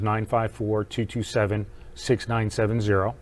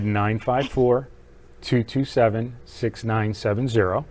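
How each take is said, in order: First: The number is said at a fast pace. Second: The number is said at a slow pace.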